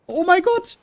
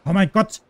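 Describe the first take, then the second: First: Much higher, loud exasperated cry; panicking gamer. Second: Panicking gamer. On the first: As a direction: squeal it in panic. (panischer Aufschrei) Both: Real, not acted. Runs out of ammo mid-fight.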